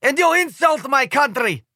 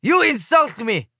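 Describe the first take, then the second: First: Put-on high, accented, stressing you; Slovenian cry. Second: Put-on slow, high, stressing YOU, accented; Slovenian cry. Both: A narrator's reading. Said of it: "cries the Slovenian guy".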